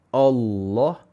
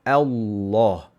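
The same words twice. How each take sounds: First: The opening vowel is heavy, like o. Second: The opening vowel is light, like a. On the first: The speaker calls it wrong. "Kesilapan yang biasa orang buat ialah hamzah jadi tebal" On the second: The speaker calls it right. "Hamzah nipis, lam tebal"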